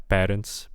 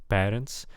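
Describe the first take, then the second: The two takes are said the same way.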